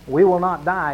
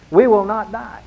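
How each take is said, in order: First: Said in the usual way. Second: "We will not die" said higher and louder, with weight on "We"; emphatic declaration. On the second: Shown as a demonstration. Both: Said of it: "But it's emphatic".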